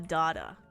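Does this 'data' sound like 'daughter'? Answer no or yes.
yes. The word sounds much like 'daughter'. "people were thinking I was trying to say daughter"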